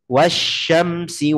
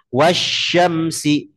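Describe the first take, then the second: Both takes have the same delivery.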